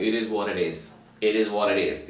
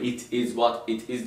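First: Low, run-together "It is what it is", t's softened to r-like taps; native-style linking. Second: "It is what it is" with each word sounded separately; careful word-by-word. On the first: Teacher mimicking how natives say it, native-style linking. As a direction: slur "It is what it is" into one linked phrase with tapped t's. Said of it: "diyor. Böyle değişik şeyler diyorlar". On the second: Teacher showing how natives don't say it, careful word-by-word. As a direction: slowly spell out "It is what it is" word by word. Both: Shown as a demonstration.

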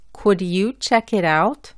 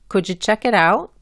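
First: "Could you" with D and Y kept apart, "out" with its full OU, each word distinct; careful English. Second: "Could you" merged into "cujoo", L silent, "out" said like Spanish A with T barely heard; fast linked English. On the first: Teacher showing learners the careful version of the question. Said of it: "hablando bien". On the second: Teacher showing learners the fast casual version. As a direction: blur "Could you check it out?" into a quick casual run. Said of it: "muchas veces decimos". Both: Shown as a demonstration.

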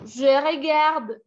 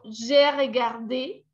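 First: "regarde" ending on the d, final e silent; no é sound at the end of "regarde"; unaccented present tense. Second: "regardé" ending on a clear "day"; accented final é. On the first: ("regarde" con la e final muda) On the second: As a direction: sound out the é closing "regardé". ("regardé" con la é final bien pronunciada) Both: Shown as a demonstration. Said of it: "Miren lo que le hace un acento a algo".

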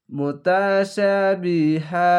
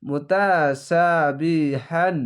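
First: মুতাশাবিহা chanted, ending on a long open "haa"; stopping form. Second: মুতাশাবিহান drawn out slowly, ending in n; final HAN sounded. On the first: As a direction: drop the n of the ending and stretch মুতাশাবিহা. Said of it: "একটি জাবার বাদ হয়ে এক আলিফ টান হবে". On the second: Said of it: "হান বলবেন না". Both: Shown as a demonstration.

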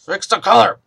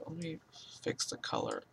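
First: "Fix the color" louder, announced clearly. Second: "fix the color" whispered, much softer and voiceless; "fix the color" barely whispered; muttered under breath. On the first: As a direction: call out "Fix the color" firmly. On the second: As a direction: mumble "fix the color" to yourself. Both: Real, not acted. Muttered then repeated aloud.

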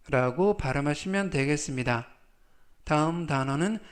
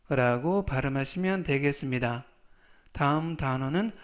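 No difference in how they are said.

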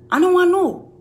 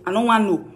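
First: "I don't want know" jumps high with a push on WANT; raised dismissal. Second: Said in the usual way. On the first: Shown as a demonstration. Brushing off Henrietta's gossip, higher and louder. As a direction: fling it up dismissively. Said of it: "repeated higher, louder". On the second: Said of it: "repeated dismissal".

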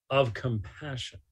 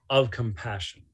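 Both takes have the same delivery.

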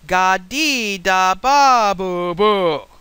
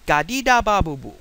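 First: Imitating a child repeating babble, loud and drawn out; very slow, emphatic, much louder babble; slower and louder. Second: Imitating a baby's confident babble, louder; quick, emphatic toddler gibberish, falling at the end; babbling with conviction. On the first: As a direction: spell out each syllable loudly for a slow listener. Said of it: "you say it slower and louder". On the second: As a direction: babble it firmly as if it were a real sentence. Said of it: "They say it with great conviction".

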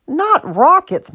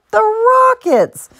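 First: Slow, high NOT before Rockets; patient correction, leaning on NOT; correcting. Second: Very high, stretched-out Rockets; high, slow flourish on Rockets; emphatic correction. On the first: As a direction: correct her with weight on NOT, Rockets said in passing. Rob corrects Martha's misunderstanding. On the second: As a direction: draw out Rockets with big showy emphasis. Rob stresses the intended name. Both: A narrator's reading.

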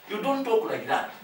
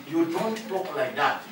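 First: Don't lifted high and stressed; "don't" said higher and sharper; firm rebuke. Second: Said in the usual way. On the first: Shown as a demonstration. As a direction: push "don't" up as a firm scold.

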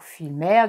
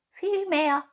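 First: Said in the usual way. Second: High-pitched little cat echo; cooing cat. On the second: Acted. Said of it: "säuselte die Katze".

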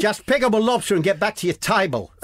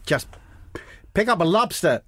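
First: High-pitched put-on Australian accent; badly aimed accent that lands Australian; Aussie accent. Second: Put-on high-pitched, off-target American accent; badly faked accent, American-sounding and raised; botched American-sounding accent. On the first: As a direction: give the order in a hammed-up Aussie voice. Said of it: "No, that's Aussie". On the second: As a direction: attempt an accent that slips into American.

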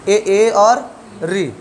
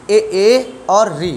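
First: Very slow, each vowel stretched; slow listing. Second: Very slow, each vowel drawn out; slow listing. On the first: Teacher repeating the front vowel list slowly. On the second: Teacher slowly listing the front vowels for students. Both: Shown as a demonstration. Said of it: "तो आप बताओगे".

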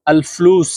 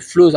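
First: আল ফুলুস with the correct Arabic vowels, carefully modelled; correct pronunciation. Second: ফুলুস said the common wrong way, as many learners say it; the mistaken ফুলুস, demonstrated as the error; wrong pronunciation. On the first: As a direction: model আল ফুলুস clearly for students to follow. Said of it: "আপনারা আমার উচ্চারণটা একটু follow করবেন". (সঠিক উচ্চারণে আল ফুলুস) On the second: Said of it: "এটা গলত". (ভুল উচ্চারণে ফুলুস) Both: Shown as a demonstration.

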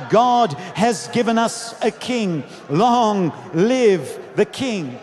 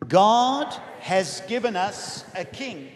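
First: Stretched-out, forceful proclamation; crowd's shout. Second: Measured, phrase-by-phrase recitation; leading group confession. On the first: Retold or imitated. Crowd hails their new king, shouting. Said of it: "Others would shout". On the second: Real, not acted. Preacher leads family in a confession together, reciting. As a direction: lead them word by word. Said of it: "We're gonna say this together".

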